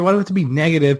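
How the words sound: It sounds friendly and pleading.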